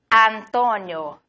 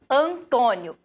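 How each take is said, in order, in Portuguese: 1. O nome é pronunciado com sons de vogais espanholas. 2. O nome é pronunciado com sons de vogais portuguesas. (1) "En español" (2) "en portugués"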